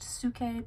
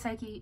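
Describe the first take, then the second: First: The name is said the ancient Greek way. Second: The name is said the familiar English way. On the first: "technically supposed to be pronounced Suke because that's how you pronounce the Greek word" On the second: "I initially read it as Psyche"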